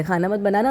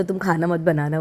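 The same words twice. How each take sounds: First: A mild, imitated strict "खाना मत बनाना" with the last word lifted; strict order. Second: Said in the usual way. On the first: Husband strictly tells wife not to cook, a mild imitated firm order. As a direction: lightly mimic the husband's firm warning. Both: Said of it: "मुझे strictly बोल के गए".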